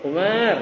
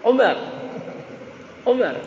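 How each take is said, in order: First: Umar with the first syllable lifted. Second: Umar with the end lifted high; Indonesian-style call. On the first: Teacher showing how Arabs call the name Umar. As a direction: say Umar with the lift on U. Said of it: "Misalkan nama saya Umar ya". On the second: Teacher imitating how Indonesians call out Umar. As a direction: call out Umar with the pitch jumping up on the last syllable. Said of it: "belum pernah dengar gitu ya". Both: Shown as a demonstration.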